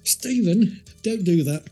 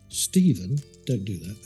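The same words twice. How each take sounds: First: It is said loudest and most angrily. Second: It is said at a calm, normal volume.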